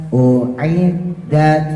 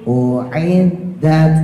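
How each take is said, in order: The two takes are said the same way.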